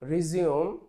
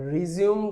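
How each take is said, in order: First: The word ends in an 'oom' sound. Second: The same.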